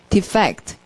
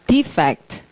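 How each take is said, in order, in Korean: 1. 강세는 두 번째 음절에 있습니다. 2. 강세는 첫 번째 음절에 있습니다. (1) "탈출하다. 동사일 때" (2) "발음을 두 개로 해요. defect, 뜻, 결점"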